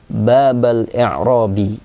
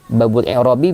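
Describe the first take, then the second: First: The first word ends in an a vowel. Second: The first word ends in a u vowel. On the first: The phrase is the object of an omitted verb. "cara baca yang kedua berharokat fathah" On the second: The phrase is the subject or predicate of an omitted partner. "cara baca yang pertama ... berharokat dhammah"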